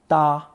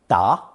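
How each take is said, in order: First: The syllable is said with the first tone. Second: The syllable is said with the second tone. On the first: "but in some phrases, first tone" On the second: "It's usually pronounced second tone"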